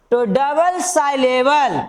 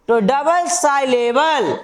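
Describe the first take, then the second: No difference in how they are said.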